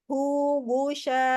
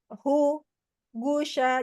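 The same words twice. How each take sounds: First: The two syllables run together without a break. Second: There is a break between the two syllables. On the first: The speaker calls it right. "Jadi hu, gusya gitu" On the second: The speaker calls it wrong. "jangan hu, gusya. Jangan gitu"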